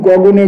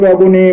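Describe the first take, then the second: Both takes have the same delivery.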